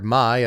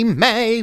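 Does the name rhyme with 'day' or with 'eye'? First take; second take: eye; day. First: The name rhymes with eye. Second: The name rhymes with day. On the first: This is how it was mistakenly assumed to be said. The speaker calls it wrong. "I was sure that you pronounce this card Mai" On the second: This is the official pronunciation. The speaker calls it right. "which is apparently how you pronounce this card's name"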